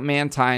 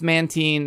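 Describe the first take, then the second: First: The last syllable does not sound like 'teen'. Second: The last syllable sounds like 'teen'. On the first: The speaker calls it wrong. "not Mantine" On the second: The speaker calls it right. "it's Mantine, ... because it's like Tyke, teen as a teenager"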